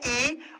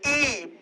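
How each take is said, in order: First: The vowel is short and said gently. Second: The vowel is drawn out long with more force.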